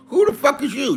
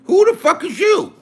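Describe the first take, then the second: First: High, indignant question at usual volume; angry challenge. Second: High-pitched, indignant outburst; angry challenge. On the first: Ranting at a chat critic, controlled angry challenge. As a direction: repeat the challenge high but without shouting. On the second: Ranting at a chat critic, angry challenge. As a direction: fire the question out, high and outraged. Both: Real, not acted.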